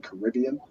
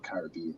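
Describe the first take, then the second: First: It is said the American way. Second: It is said the British way. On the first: "Americans would probably say the Caribbean, you'd say Caribbean" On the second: "but in the U K we'd say the Caribbean"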